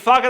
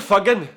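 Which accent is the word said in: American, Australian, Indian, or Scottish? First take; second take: Australian; Scottish. First: It is said in a broad Australian accent. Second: It is said in a Scottish accent, strong g. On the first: "What about Bogan Australian?" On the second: "What about Scottish? ... the G really does stand out"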